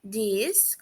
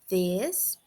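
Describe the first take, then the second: First: It starts with a soft d-like sound. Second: It starts with the tongue against the upper teeth. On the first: "com um som suave de D" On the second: "colocando a língua nos dentes superiores"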